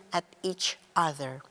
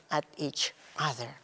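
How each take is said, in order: Both takes have the same delivery.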